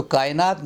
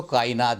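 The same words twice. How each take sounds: First: "कायनात" as kaay-naat; common mispronunciation. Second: "कायनात" as kaa-i-naat; careful three-syllable "कायनात"; correct pronunciation. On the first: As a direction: say "कायनात" with a y glide. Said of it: "ना बोल के". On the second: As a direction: say "कायनात" with separate i. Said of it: "इसको कायनात बोलें". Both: Shown as a demonstration.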